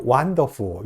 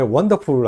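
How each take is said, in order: First: Put-on Chinese-accented WONDERFUL, said like "wan-de-fo"; imitated Chinese pronunciation of WONDERFUL. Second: Said in the usual way. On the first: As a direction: say WONDERFUL as Chinese speakers do, with an open "fo" ending. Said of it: "중국 사람들이 wonderful 이런 식으로 발음을". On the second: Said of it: "영어에 wonderful 하는 발음".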